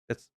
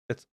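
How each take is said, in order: The two takes are said the same way.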